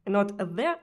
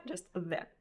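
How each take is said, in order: First: "there" said with a rolled Russian R; "there" with a trilled R, louder; wrong Russian R. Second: "there" with a soft English R; "there" without the rolled R. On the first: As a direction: roll the R in "there" hard. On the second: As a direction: say "there" with a smooth English R, softer. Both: Shown as a demonstration.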